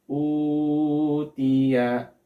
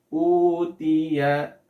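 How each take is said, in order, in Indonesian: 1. Vokal panjang dibaca lebih dari dua harakat. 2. Vokal panjang dibaca selama dua harakat. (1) "Masih terlalu panjang, melebihi dua harokat" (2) "Maka dia harus dibaca dua harokat"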